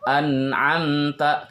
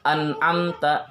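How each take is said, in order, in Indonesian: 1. Bunyi n ditahan sebentar. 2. Bunyi n dipotong pendek. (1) "agak ditahan sedikit" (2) "Jangan membaca an'amta"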